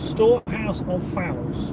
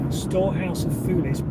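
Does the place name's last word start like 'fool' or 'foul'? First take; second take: foul; fool. First: The last word begins with a 'foul' sound. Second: The last word begins with a 'fool' sound. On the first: The speaker calls it right. "pronounced foul" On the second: The speaker calls it wrong. "Tim is there to correct my pronunciation"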